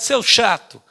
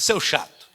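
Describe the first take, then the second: First: Put-on a touch of childish pique; mild mock-angry child retort; annoyed boy. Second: Echo. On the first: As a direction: snap it like a sulky kid. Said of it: "o menino ficou enfesado". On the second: Acted. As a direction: throw it back like a distant echo. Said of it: "a voz de lá do outro lado também disse".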